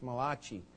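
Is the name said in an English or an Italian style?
Italian. The name is said with an Italian-sounding pronunciation. "If you pronounce it the Italian way"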